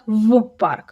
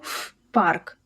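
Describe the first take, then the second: First: The first sound is a voiced V. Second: The first sound is a voiceless F. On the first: The speaker calls it wrong. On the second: The speaker calls it right. "gets devoiced and sounds like its voiceless twin F. So we say"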